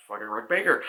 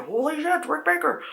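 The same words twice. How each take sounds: First: Said in the usual way. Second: Very high awed exclamation; starstruck fan gasp. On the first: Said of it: "plain restatement". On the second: Retold or imitated. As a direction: gasp at your idol. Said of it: "I was like".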